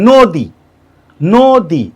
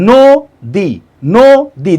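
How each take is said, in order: No difference in how they are said.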